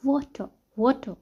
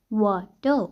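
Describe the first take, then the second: First: वाटर as British "waw-tuh", R dropped; British O sound. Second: वाटर broken in two, "waw... tuh"; British O, split up. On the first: Teacher giving an example of the British sound, rounded वाटर. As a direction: round the first vowel of वाटर, no final R. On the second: Teacher breaking down the British sound, वाटर in two slow parts. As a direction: pull वाटर apart by syllable, rounded vowel, no R. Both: Shown as a demonstration. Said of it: "ये sound mostly British".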